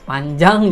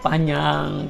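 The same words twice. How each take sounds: First: The j after the n is clearly pronounced. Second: The j is merged into the n sound.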